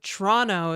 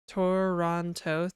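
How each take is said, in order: First: The word is squeezed into one syllable. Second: The word is said with three syllables. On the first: "is one syllable" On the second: "three syllables"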